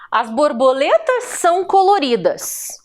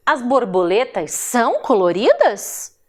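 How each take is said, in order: First: "coloridas" falls as a full stop; statement intonation. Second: "coloridas" lifted as a question; question intonation. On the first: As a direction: state it as a fact, closing down on "coloridas". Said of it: "eu estou afirmando". (afirmação, com "coloridas" descendo no final) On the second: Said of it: "é um questionamento". (pergunta, com "coloridas" levantado em tom de dúvida) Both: Shown as a demonstration.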